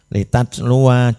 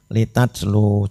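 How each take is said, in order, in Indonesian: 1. Kata ini berakhir dengan vokal akhir yang penuh. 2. Kata ini berakhir terpotong, tanpa vokal akhir. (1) "jika wasol" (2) "jika wakof"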